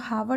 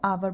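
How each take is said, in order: First: The word starts with an audible h sound. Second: The word starts with a vowel, no h. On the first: The speaker calls it wrong. "इसको हावर नहीं बोलेंगे" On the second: The speaker calls it right. "H silent होता है, हम इसको आवर बोलते हैं"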